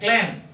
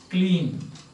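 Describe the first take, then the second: First: The vowel sounds like the one in lane. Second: The vowel sounds like the one in lean. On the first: This is the older pronunciation of the word. "In Chaucer's time, it was pronounced like this... like lane" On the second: This is the later pronunciation of the word. "But in Shakespeare's time, it has changed to clean"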